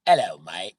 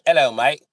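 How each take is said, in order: First: Loud British greeting in own pitch; lightly done British hello; British accent. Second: Loud, high British greeting; hammed-up British hello; British accent. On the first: Retold or imitated. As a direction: say it like a Brit. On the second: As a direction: chirp it like a cheery Brit. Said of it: "if you got a British accent".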